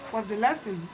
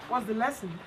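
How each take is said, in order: Both takes have the same delivery.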